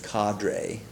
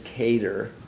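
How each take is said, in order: First: The word is said with an American pronunciation. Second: The word is said with a British pronunciation. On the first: "American is" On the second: "England pronunciation is"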